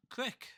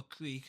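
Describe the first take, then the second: First: "creek" said as "crick"; dialect pronunciation. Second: "creek" with a long, drawn ee; standard pronunciation. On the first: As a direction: make "creek" rhyme with trick. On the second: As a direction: say "creek" slowly, rhyming with seek. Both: Shown as a demonstration. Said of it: "however you wanna say it".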